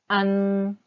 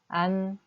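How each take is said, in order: First: It is a strongly nasal vowel. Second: It ends with a plain n consonant. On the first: "안을 콧소리를 내주세요" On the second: "아에다가 일단 니은 받침을 붙여주세요"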